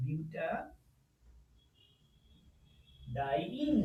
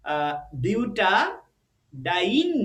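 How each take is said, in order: First: বিউটাডাইন stretched out very slowly and softly, rising on ডাইন; very slow pronunciation. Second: বিউটাডাইন stretched slowly with the end ডাইন said clearly; drawn-out pronunciation. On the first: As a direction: draw out every syllable of বিউটাডাইন softly. (বিউটাডাইন খুব ধীরে, নরম গলায় টেনে) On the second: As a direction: say বিউটাডাইন syllable by syllable, with the ডাইন ending held long. (বিউটাডাইন ধীরে টেনে টেনে উচ্চারণ) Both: Shown as a demonstration. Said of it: "ডাইন উচ্চারণ করতে হবে".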